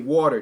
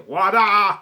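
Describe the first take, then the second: First: It is said in a general American accent. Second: It is said in a Boston accent.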